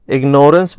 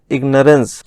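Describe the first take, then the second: First: इग्नोरेंस said with a long "nore" in the middle, ig-NORE-ence; mispronounced इग्नोरेंस. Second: इग्नोरेंस with a short, reduced middle vowel, IG-nuh-rence; correct pronunciation of इग्नोरेंस. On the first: Teacher showing students the wrong noun form, इग्नोरेंस as ig-NORE-ence. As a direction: say इग्नोरेंस as if built on "ignore". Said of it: "इग्नोरेंस भी नहीं बनता है". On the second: Teacher giving students the proper noun, इग्नोरेंस as IG-nuh-rence. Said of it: "ये होता है इग्नोरेंस". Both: Shown as a demonstration.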